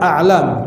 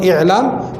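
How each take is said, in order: First: The word begins with an 'a' vowel. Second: The word begins with an 'i' vowel. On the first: "boleh dibaca A'lam" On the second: "atau dibaca boleh I'lam"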